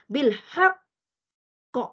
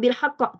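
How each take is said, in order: First: It is said slowly, holding before the final bounce. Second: It is said quickly, running straight to the end. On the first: The speaker calls it right. "dia kena lambat sebenarnya, saya bagi nampak" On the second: The speaker calls it wrong. "jangan bil haqq terus"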